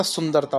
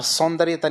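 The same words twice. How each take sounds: First: सुंदरता with short 'u', no 'ya'; correct form. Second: सौंदर्यता with long 'sau' and a 'ya' before 'ta'; wrong form. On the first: Teacher giving students the right word, सुंदरता as sun-dar-ta. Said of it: "होता है". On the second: Teacher showing students the faulty word, सौंदर्यता as son-dar-ye-ta. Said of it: "नहीं होता". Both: Shown as a demonstration.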